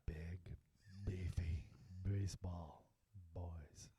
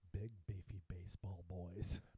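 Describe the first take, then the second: First: It is said in a put-on sexy voice. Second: It is said in a normal voice.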